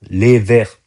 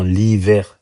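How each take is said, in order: First: It is said in standard French as 'les verts'. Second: It is said with an accent, sounding like 'l'hiver'. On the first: This is what the fans actually meant. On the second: This is how the fans chanted it.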